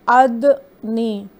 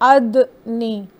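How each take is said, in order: Both takes have the same delivery.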